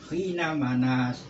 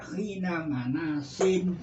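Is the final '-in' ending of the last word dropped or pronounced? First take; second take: dropped; pronounced. First: The last word stops without an '-in' sound. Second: The last word ends with an '-in' sound. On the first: The speaker calls it wrong. "Jangan dibaca khina manas" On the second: The speaker calls it right. "Dibaca harus dibaca ini"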